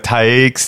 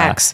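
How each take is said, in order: First: The name has an 'eye' vowel, like 'bikes'. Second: The name has an 'eh' vowel, like 'checks'. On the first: It is a deliberate joke mispronunciation. The speaker calls it wrong. "we both mispronounce it on purpose" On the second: It is the pronunciation reported as correct. The speaker calls it right. "It said it's Tex"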